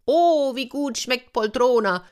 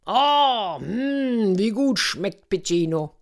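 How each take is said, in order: First: Höherer, nachäffender Zuruf vom Dach; spöttischer Ruf. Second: Gedehntes, hohes Oh und Hm beim Schlemmen; genießerisch schwärmen; genüsslicher Orko. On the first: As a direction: den Esser von oben necken. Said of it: "rief Piccino". (spöttisch rufend) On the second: Orko genießt schmatzend sein Essen. (genüsslich schwelgend) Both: A narrator's reading.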